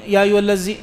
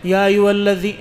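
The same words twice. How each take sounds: First: الذی said "allazi" with a buzzing z; dhal as za. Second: Tongue between teeth on the ذ of الذی; correct dhal. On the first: Teacher showing the faulty recitation, dhal as za. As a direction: say الذی with z instead of th. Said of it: "زال ایک مرتبہ پڑھ". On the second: Teacher showing students the recitation, correct dhal. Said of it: "آپ یوں پڑھ لیتے". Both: Shown as a demonstration.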